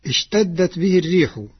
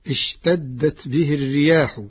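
First: الريح singular, ar-riih; first reading. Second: الرياح as ar-riyaah, plural; Warsh plural reading. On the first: Teacher recites the common reading before Warsh's, الريح as ar-riih. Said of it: "قرأ ورش كلمة "الريح". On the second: Teacher demonstrates Warsh's plural reading, الرياح as ar-riyaah. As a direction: say الرياح with a long aah. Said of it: "بالجمع". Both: Shown as a demonstration.

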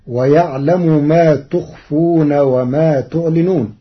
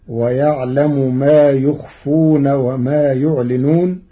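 First: Said in the usual way. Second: يخفون and يعلنون starting with ya, slowly; Warsh reading. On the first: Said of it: "قرأ ورش". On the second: Shown as a demonstration. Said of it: "بياء الغيب في الفعلين". (يخفون ويعلنون بياء الغيب)

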